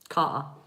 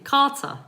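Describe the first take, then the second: First: The t is dropped and it ends in 'a'. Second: The middle t is clearly pronounced. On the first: This is how people near one part of the capital say it. "we wouldn't pronounce the T, we wouldn't pronounce the E R. It becomes an A" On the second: This is how most people in the country say it. "The majority of the U K would actually say Carter"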